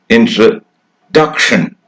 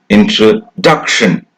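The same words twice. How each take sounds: Both takes have the same delivery.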